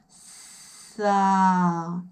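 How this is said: The consonant and vowel are slowly linked. "처음에는 스 소리와 모음 소리를 천천히 연결시켜"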